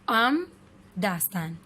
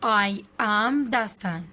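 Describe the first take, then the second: First: It is said as one contracted syllable. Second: It is said as two full words.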